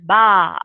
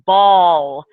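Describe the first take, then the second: First: The word ends without any l sound. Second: The word ends with a clear l sound. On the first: A baby is approximating the word. "for a while it comes out as ba" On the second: An adult says the word fully. "it takes them a while to enunciate ball"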